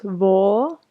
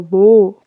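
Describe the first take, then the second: First: "wo" with a narrow, closed o; "wo" said with lips barely open; wrong wo. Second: "wo" said with the mouth wide open and louder. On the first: Teacher showing the wrong way, a narrow "wo". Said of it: "no es". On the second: Teacher showing the right way, a wide-open "wo". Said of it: "con la boca muy abierta". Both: Shown as a demonstration.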